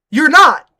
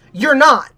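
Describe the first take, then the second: First: Second "not" said louder and firmer; a flat, emphatic denial; firm repeat. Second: Said in the usual way. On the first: Real, not acted. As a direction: lean hard on "not" the second time.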